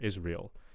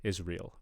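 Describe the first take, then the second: Both takes have the same delivery.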